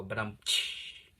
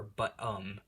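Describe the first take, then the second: First: Slow "But, um" capped with a mouth cymbal tsh; rimshot gag. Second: Said in the usual way. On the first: Shown as a demonstration. Narrator mocks his own filler words with a slow rimshot. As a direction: deliver it like a punchline with a drum hit. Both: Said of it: "I always feel like I'm supposed to go".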